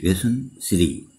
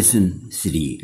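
First: Slow, soft model. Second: Said in the usual way. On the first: Shown as a demonstration. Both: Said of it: "teacher repeats the lesson title".

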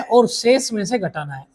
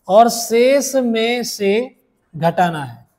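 First: Said in the usual way. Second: Very slow, word-by-word dictation. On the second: Shown as a demonstration. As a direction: spell the rule out slowly, pausing between words. Teacher dictates rule for note-taking.

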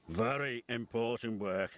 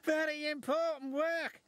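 First: Low, measured authority; Fat Controller's assurance. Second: High, eager engine voice; excited exclamation. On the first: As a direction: state it low and steady, as the boss. Fat Controller answers, James echoes. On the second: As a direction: exclaim it high, thrilled by the job. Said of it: "exclaimed James". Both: A narrator's reading.

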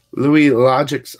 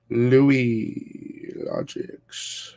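First: Slow, loud hype call of the name; calling out a repeat donor, loud and stretched; drawn-out shout-out. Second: Crooned name. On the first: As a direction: belt the name out slowly. Another donation from same supporter. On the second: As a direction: let the name melt into a croon. Repeating supporter's name, sing-song. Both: Real, not acted.

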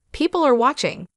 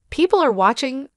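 First: "People are watching" as a statement, high start, falling end. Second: "People are watching" as a question, rising at the end; questioning echo. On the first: Bystanders are looking on, "People are watching" as a falling statement. Statement, then echoed as question. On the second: Sister echoing her brother, "People are watching" as a rising question. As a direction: echo "People are watching" back, higher, lifting the last word. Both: Acted.

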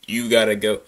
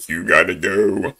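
First: Said in the usual way. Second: Low, deeper take on "You gotta go."; imitating that guy. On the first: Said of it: "What does that guy do?". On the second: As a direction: mimic the guy in shorts, lower. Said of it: "that guy in the shorts".

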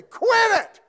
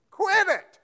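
First: High, loud sharp shout "Quit it!"; parent shouting at kids. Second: Loud, high shout "Quit it" broken by a laugh; laughing mock shout. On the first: Retold or imitated. Parent snapping at misbehaving kids, loud shout. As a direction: bark it like a fed-up parent. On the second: Preacher repeating the parent's order, laughing shout. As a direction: shout it again while laughing.

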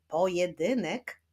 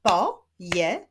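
First: Said in the usual way. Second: "Pojedynek" split as po... je... dy... nek; syllable by syllable. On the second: Shown as a demonstration. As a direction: clap out "Pojedynek" in four separate beats. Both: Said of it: "Zapraszam do wyklaskiwania sylab".

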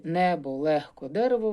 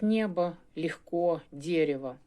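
First: Said in the usual way. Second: Mock Russian accent on «небо», «легко», «дерево»; Russian-style pronunciation. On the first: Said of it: "Наші". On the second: Shown as a demonstration. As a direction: soften the consonants before е and swallow the unstressed vowels in «небо», «легко», «дерево». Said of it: "вони будуть вимовляти як".

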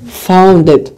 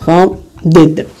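First: Said in the usual way. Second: فاوندد drawn out slowly, each syllable separate; slow model pronunciation. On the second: Shown as a demonstration. Teacher to students drilling the ending, slow and clear. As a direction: say فاوندد slowly so students hear the final d sound. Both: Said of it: "دونك حنقراها فاوندد".

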